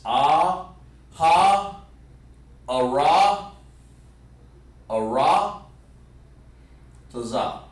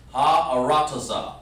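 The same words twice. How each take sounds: First: "Ah... ha... ara... taza" with long pauses between parts; broken down. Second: "Ha, ara, taza" run together, falling away on "taza"; one smooth sound. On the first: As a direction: sound out "Ah, ha, ara, taza" piece by piece. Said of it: "let's break it down like this". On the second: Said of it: "really one smooth sound". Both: Shown as a demonstration.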